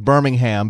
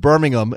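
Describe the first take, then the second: First: It is said with an American English pronunciation. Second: It is said with a British English pronunciation. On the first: It names the city in Alabama. "when it's the American one" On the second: It names the city in England. "When it's the English one"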